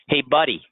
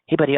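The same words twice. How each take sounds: First: It sounds hostile and confrontational. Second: It sounds gentle and soothing. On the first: The listener is being challenged. "Starting a fight" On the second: The listener is being comforted. "consoling a child"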